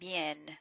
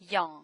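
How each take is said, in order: First: The word is said with a Spanish-like vowel. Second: The word is said with a French nasal vowel. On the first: The speaker calls it wrong. "I hear them saying bien because you're you're trying to remember how you you pronounced um, uh, the language in Spanish" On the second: The speaker calls it right. "So in French is bien"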